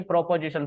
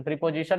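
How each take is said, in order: First: "प्रोपोजिशन" with an o sound in the first syllable, pro-position; "प्रोपोजिशन" said as pro-po-zi-shun, shown as correct; correct pronunciation. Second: "प्रीपोजिशन" with an ee sound in the first syllable, pree-position; "प्रीपोजिशन" said as pree-po-zi-shun, shown as wrong; wrong pronunciation. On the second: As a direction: say "प्रीपोजिशन" as pree, the mistake to avoid. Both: Shown as a demonstration. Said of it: "प्रीपोजिशन नहीं".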